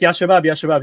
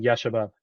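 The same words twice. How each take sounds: First: Ya Shabab called out a little higher and louder, as if to a rowdy group; imitating a calm-down call. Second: Said in the usual way. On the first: A lecturer imitating the tailor calling out Ya Shabab to calm them. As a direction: call Ya Shabab Ya Shabab to settle the men. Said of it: "So when he's like". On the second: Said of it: "the meaning that is intended by him saying".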